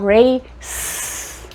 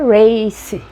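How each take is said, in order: First: The word ends cleanly on the s sound. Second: An extra vowel sound follows the final s. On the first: The speaker calls it right. "mas eu tiro o E, vai ficar race" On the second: The speaker calls it wrong. "eu ia dizer race"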